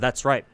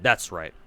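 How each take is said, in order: First: It is said in a normal speaking voice. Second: It is said in a put-on character voice. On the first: The narrator is not that character. The speaker calls it right. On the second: A particular character is narrating. The speaker calls it wrong.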